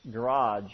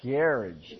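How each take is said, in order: First: "garage" said American style, ga-RAHJ with the stress at the end; the American "garage", stress on the second part. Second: "Garage" said GA-ridge, the stress up front and a short ending; British "Garage", rhymes with carriage. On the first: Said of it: "how do you say garage?". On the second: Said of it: "we say garage". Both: Shown as a demonstration.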